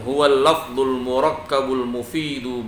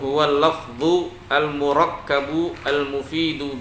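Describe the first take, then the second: First: The words run together, endings linked to the next. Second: Each word is said separately with full endings. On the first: It follows the connected reading rules. "Boleh kayak gitu, lebih bagus" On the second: It is broken apart so each vowel ending is clear. "Boleh kayak gitu bacanya ya"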